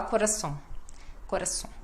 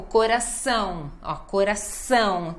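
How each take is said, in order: First: Soft "coração" with a short "-som" ending; no emphasis. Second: "coração" with a long, full nasal ÃO; emphasis on ÃO. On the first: Retold or imitated. Teacher imitating a learner, soft unstressed "coração". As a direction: swallow the ÃO of "coração", softly. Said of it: "cadê a ênfase?". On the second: Shown as a demonstration. Teacher modelling nasal words, strong ÃO in "coração". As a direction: swell on the last syllable of "coração". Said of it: "tem que dar ênfase no ão".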